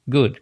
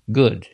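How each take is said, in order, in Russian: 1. Гласный произносится с расслабленными губами, почти без движения. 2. Гласный произносится с расслабленными губами, почти без движения.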